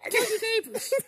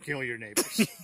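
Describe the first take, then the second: First: It is said in a high-pitched voice. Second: It is said in a deep, dark voice. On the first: "Imagine somebody with a high pitched voice" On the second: "you went dark just then. Your voice changed?"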